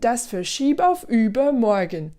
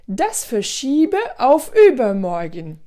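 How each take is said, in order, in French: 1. Le e final de verschiebe ne se prononce pas. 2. Le e final de verschiebe se prononce.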